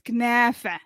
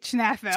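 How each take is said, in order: First: It starts with a k sound, without rural dialect. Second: It starts with a ch sound, in rural dialect. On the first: "it's kunafa" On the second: "as the Falahi Palestinians would say"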